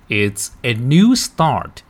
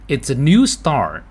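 First: The sentence is read at a slower pace. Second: The sentence is read at a faster pace.

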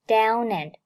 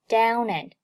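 The two takes are said the same way.

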